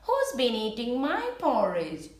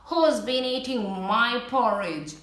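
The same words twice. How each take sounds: First: It is said in a medium voice. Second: It is said in a very loud voice.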